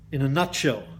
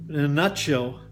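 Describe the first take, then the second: No difference in how they are said.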